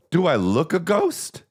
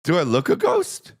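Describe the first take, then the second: First: High, slow rising question; drawn-out quote of a tourist asking; mock woman's voice, slow and rising; imitating the woman. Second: Hammed-up shouted impression; shouted imitation. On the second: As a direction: yell the quote for laughs. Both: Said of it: "That's what she said".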